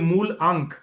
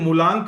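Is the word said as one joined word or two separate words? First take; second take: separate; joined. First: It is said as two separate words. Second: It is said as one joined word. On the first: "but it should be मूल अंक" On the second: "किसने मूलांक बोल दिया"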